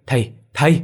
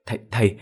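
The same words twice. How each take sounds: First: Louder, rising panicked "thầy, thầy!"; frightened cry. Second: A hesitant, stuttering call; stammering. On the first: Son seeing ghosts, loud frightened "thầy" calls. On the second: Son stammering to his father, hesitant "thầy" calls. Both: Acted. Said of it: "thằng Quang lắp bắp".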